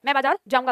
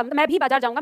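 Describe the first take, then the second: First: Said in the usual way. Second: मैं भी बाजार जाऊंगा with भी given extra weight; stress on भी. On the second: Shown as a demonstration. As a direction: lean on भी to show emphasis on मैं. (भी पर ज़ोर) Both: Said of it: "यानी इस पे जोर डाल रहा है".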